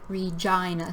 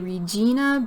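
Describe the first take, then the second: First: The middle vowel sounds like 'eye'. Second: The middle vowel sounds like 'ee'. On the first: The speaker calls it right. "we should pronounce it like Regina. Think of the I for I" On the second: The speaker calls it wrong. "A lot of people want to say Regina"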